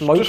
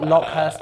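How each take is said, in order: First: It is said plainly, like the insect locust. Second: It is said with an h sound, like Lockhurst. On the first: "pronounced Locust" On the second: "I know that I'm saying it that way because I know it annoys all of you"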